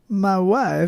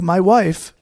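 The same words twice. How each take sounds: First: It is said in a Borat-like voice. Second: It is said in a normal voice.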